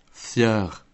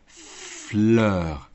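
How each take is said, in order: First: «Fieur» with a y-glide in place of the l, falling; «Fieur» said like a little child, no clear l; child's mispronunciation. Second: «fleur» with a crisp, clear fl, drawn out; «fleur» slow and distinct, falling at the end; carefully articulated. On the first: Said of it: "la reprit en articulant «fleur»". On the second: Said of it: "la reprit en articulant". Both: Acted.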